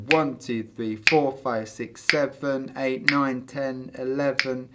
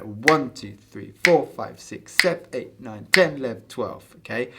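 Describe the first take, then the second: First: "seven" and "eleven" drawn out, slow; counting with full syllables that lose the pulse; overlong count. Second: One syllable per number, big beats accented; quick one-syllable count of twelve eight; short counted beats. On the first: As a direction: drag the long numbers and fall behind. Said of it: "so you lose it". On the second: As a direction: count "sev" and "lev" clipped and accented. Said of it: "we just say sev". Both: Shown as a demonstration.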